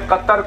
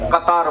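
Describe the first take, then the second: First: The second vowel is short. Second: The second vowel is long. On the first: This is the name of the country. "पूरे नेपाल में कतर कोई बोल ही नहीं सकता" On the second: This sounds like the word for a queue. "कतार बोलते हैं"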